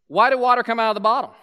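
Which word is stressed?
come out. The stress is on come out.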